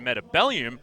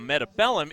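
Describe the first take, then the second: First: The name ends with an 'ee-um' sound. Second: The name ends with a plain 'um' sound. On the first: The name is treated like a chemical element. "like it is actually an element" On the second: The name is read as it is spelled. "if you want to pronounce it phonetically"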